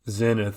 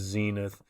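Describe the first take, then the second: First: The word is said the Scottish way. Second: The word is said the American way. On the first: "I'm a Zenith kind of guy" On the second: "The uh, Yank pronunciation is zenith"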